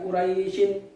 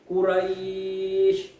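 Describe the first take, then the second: First: The word ends with an added 'in' syllable. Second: The word ends on the consonant with no vowel. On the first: The word is read as if continuing without a pause. The speaker calls it wrong. "bukan Quraisyin" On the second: The word is read at a pause at the verse end. The speaker calls it right. "Jadi bacanya Quraisy"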